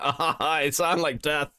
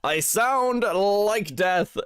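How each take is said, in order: First: Slow, drawn-out croak like a sick person; mock croak, as if barely able to talk; croaky sick voice. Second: Hammed-up dying croak. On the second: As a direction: ham it up as if on your deathbed. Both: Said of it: "and I'm like".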